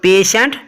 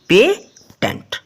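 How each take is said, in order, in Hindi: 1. बीच का व्यंजन 'sh' की तरह बोला जाता है। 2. बीच का व्यंजन 't' की तरह बोला जाता है। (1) "पेशेंट ना कि पेटेंट" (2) "ना कि पेटेंट"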